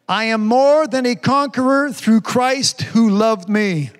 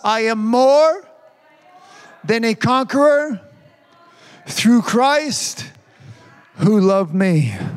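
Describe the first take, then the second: First: It is said fast. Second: It is said slowly.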